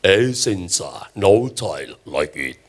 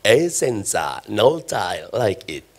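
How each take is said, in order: First: Even deeper, very slow announcer voice; better ad voiceover. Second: Deep, slow announcer voice; ad voiceover. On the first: The preacher tops the original ad with an even deeper, slower voiceover. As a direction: stretch the slogan out, rich and low. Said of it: "Saya bisa bikin jauh lebih bagus dari itu". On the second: The preacher shows his crowd the tile ad voiceover, deep and slow. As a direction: croon the slogan like a TV ad. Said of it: "coba tolong dengar yang di iklan". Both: Pretend.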